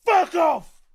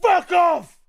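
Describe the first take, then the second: No difference in how they are said.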